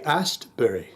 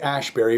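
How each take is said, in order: First: The middle of the name sounds like 'st'. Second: The middle of the name sounds like 'sh'. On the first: The speaker calls it right. "we say Astbury" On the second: The speaker calls it wrong. "We don't say Ashbury"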